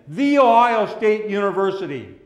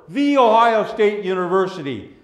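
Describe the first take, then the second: The two takes are said the same way.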